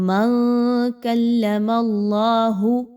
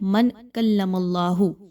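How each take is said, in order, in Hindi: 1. नून की आवाज़ छुपाई जाती है, ज़ुबान को छुए बिना। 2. नून की आवाज़ पूरी तरह और साफ़ बोली जाती है। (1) "आपने नून की आवाज़ को छुपाना है" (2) "आमतौर पे लोग इसको पढ़ते हैं ... ऐसा नहीं पढ़ना"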